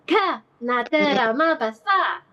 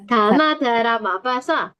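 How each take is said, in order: First: The first syllable is punched with a little melody. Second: All syllables are said evenly, without a punch.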